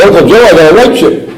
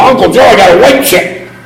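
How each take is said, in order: First: Eager announcement. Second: Much higher, pushy and insistent; insistent, in his face. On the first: Nephew trying to get his sober uncle's attention, eagerly. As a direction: show it off, hoping he'll notice. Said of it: "I said". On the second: Nephew shoving his chip in his uncle's face, insistently. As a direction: demand to be noticed. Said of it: "I got right up in his face". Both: Retold or imitated.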